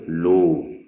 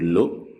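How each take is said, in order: First: The vowel is said drawn out. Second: The vowel is said short. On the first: The speaker calls it right. "le waw prolonge l'accent damma" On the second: The speaker calls it wrong. "au lieu de dire lo"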